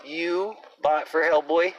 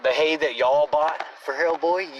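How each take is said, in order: First: "you" pointed and slow, bought for Hellboy drawn out; single out the listener: you bought for Hellboy; accusing stress on you, slow and deliberate. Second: Said in the usual way. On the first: Shown as a demonstration. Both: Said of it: "Yes, you".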